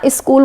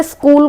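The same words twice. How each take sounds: First: स्कूल said as इस्कूल with an i before the s; स्कूल the village way, isskool; इस्कूल, the way it is said past Etawah; regional UP pronunciation. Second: Said in the usual way. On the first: Shown as a demonstration. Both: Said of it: "को ना स्कूल बोलेंगे".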